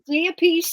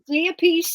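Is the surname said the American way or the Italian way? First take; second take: American; American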